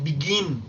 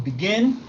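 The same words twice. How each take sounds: First: "begin" wrongly said with a long "ee": bi-GEEN. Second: "begin" with short lax I, leaning towards E. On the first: Teacher warns learners off it, "begin" mispronounced as bi-GEEN. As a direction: stretch the I of "begin" into a Spanish i. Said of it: "Recuerden que esto no es begin". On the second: Teacher models the right sound, "begin" with a short E-like I. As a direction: say "begin" nearly as bi-GEN. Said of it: "se pronuncia más como una E". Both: Shown as a demonstration.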